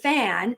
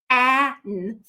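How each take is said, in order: First: The sounds are blended into one smooth word. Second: The sounds are stretched and pulled apart. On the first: The speaker calls it right. "We say fan" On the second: The speaker calls it wrong. "If you sound it out, it's going to be fan"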